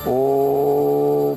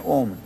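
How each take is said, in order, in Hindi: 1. ओम लंबा है, पूरी सांस पर खिंचा हुआ। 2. ओम छोटा और झटके वाला है। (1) "इस तरह से अपनी पूरी सांस को भर करके" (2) "ऐसे नहीं"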